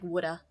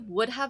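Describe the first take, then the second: First: The words blend quickly into one reduced word. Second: Both words are said fully and separately.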